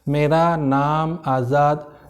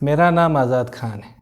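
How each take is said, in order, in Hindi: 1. यह बहुत धीरे बोला गया है। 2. यह मध्यम गति से बोला गया है। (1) "आपका स्पीड बहुत कम है" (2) "ये स्पीड था जो सामने वाला समझ जाए"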